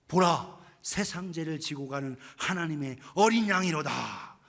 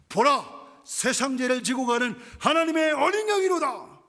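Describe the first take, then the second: First: It is shouted at the first, lowest volume. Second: It is shouted somewhat louder than the first.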